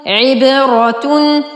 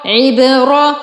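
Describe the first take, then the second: First: Slow, drawn-out عبرة ending in "-atun"; عبرة with dammatain. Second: عبرة with no "tun" ending, cut at "ra"; عبرة ending in fatha. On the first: Teacher reading the completed word, عبرة said "ibratun". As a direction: say عبرة as "ibratun", sounding the final "tun". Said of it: "تا ضمتين تن". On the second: Teacher joining the syllables so far, عبرة said "ibra". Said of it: "را فتحة را". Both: Shown as a demonstration.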